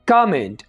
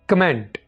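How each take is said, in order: First: The first syllable is drawn out. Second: The first syllable is short. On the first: The speaker calls it right. "थोड़ा सा का के जो sound है इसको खींचे" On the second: The speaker calls it wrong. "ना के"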